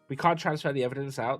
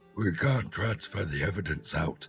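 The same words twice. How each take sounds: First: It is said in a normal speaking voice. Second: It is said in a strained, very deep voice.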